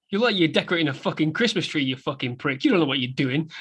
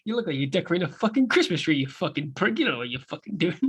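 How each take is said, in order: First: Fast, sneering insult; Tommy mocking. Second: Fast sneer dropping softer at the end; Tommy mocking. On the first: Co-host quoting Tommy teasing Henry, fast sneer. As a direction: rattle off the insult. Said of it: "hear Tommy in the background go". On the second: Co-host quoting Tommy's line again, fast. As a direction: spit it out fast then mumble.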